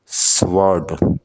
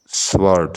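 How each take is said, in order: First: sword drawn out slowly as one beat; slow syllable demo. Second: Said in the usual way. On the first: Shown as a demonstration. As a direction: hold sword long for the class. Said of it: "sword में एक syllable". ("Sword" धीरे, खींचकर) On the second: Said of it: "sword में".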